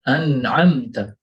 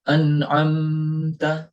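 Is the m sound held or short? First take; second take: short; held. First: The m is short and not held. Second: The m is held for a while. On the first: The speaker calls it right. "Mim di situ kita jelaskan tanpa kita tahan" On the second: The speaker calls it wrong. "Kita tidak mengucapkannya an'amta. Nah, di sini kurang tepat"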